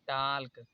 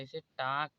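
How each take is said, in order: First: The L sound is pronounced. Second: The L sound is silent. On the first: The speaker calls it wrong. "अब यहाँ पर टाल्क नहीं पढ़ा जाएगा" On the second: The speaker calls it right. "इसे टाक पढ़ा जाएगा"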